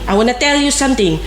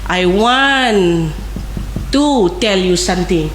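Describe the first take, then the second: First: Want to is run together as wanna. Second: Want and to are said as separate words.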